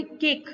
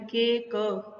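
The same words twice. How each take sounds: First: Said in the usual way. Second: "के क" broken into के and a separate क; wrong take of "के क", drawn apart into two sounds; split pronunciation. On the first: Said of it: "हम बोलेंगे केक". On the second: Shown as a demonstration. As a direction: say "के क" in pieces, with the final क sounded on its own. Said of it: "ऐसे नहीं बोलेंगे".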